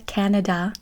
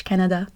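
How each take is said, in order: First: Canada said the English way; English-accented "Canada"; English pronunciation. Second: Canada said the French way; French-accented "Canada"; French pronunciation. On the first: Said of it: "in English". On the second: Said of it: "en français". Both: Shown as a demonstration.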